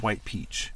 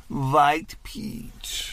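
First: Said in the usual way. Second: Exaggerated Persian accent. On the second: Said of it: "it was very exaggerated".

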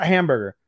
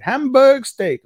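First: Said in the usual way. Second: "Hamburg steak" slow, high and loud, each word stretched; mocking imitated pronunciation. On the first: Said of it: "say it, hamburger". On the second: Showing the hated wording, mocking drawn-out "Hamburg steak". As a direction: hammer out "Hamburg steak" long and high in mockery. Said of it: "I hate how they say it".

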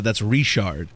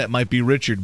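First: Cajun "Richard" with a French sh; Louisiana Richard. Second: "Richard" as RICH-erd, hard ch; English Richard. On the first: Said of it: "but in Louisiana". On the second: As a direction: say "Richard" the standard American way. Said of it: "outside of Louisiana". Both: Shown as a demonstration.

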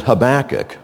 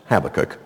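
First: Habakkuk with stress on the middle syllable; first pronunciation. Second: Habakkuk with stress on the first syllable; alternative pronunciation. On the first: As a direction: say Habakkuk as huh-BACK-uk. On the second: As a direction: say Habakkuk as HAB-uh-kuk. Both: Shown as a demonstration. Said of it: "also pronounced Habakkuk".

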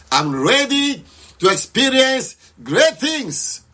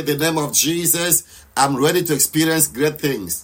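First: Slow, high, drawn-out prayer cry; passionate declaration. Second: Said in the usual way. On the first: Shown as a demonstration. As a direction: declare it with passion, stretching the words. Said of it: "Just shout aloud". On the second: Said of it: "Pray with passion".

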